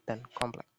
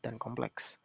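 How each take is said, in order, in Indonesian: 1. Kata itu diakhiri k tunggal. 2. Kata itu diakhiri gugus ks. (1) "Bagi orang yang tidak dapat menikmati pendidikan formal" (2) "gugus konsonan akhir kes sering terdapat dalam ujaran kaum yang berpendidikan"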